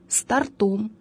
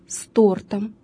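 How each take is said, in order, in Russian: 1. Ударение на последнем слоге. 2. Ударение на первом слоге. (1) "является ошибочным" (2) "ударение ... сохраняется на первом слоге"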